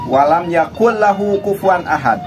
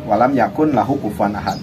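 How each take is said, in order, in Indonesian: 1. Huruf n menyatu dengan bunyi l setelahnya. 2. Huruf n diucapkan terpisah sebelum l. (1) "Contohnya imlanya begini" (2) "kalau per kata ditulisnya walam yakun lahu"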